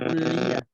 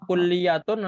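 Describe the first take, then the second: First: The word ends with an h sound. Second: The word ends with a full tun sound.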